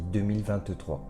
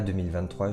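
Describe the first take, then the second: First: Each syllable is pronounced clearly and distinctly. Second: The words are run together loosely. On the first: The speaker calls it right. "j'aime bien articuler. ... je dis" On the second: The speaker calls it wrong. "Je ne dis pas"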